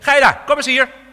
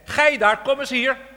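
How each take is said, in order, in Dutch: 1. Het wordt scherp uitgesproken, als een streng bevel. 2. Het wordt gewoon voorgelezen, zonder bevelende toon. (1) "zoals u het lezen moet. ... Het was een commando" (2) "zo hebben we het gelezen"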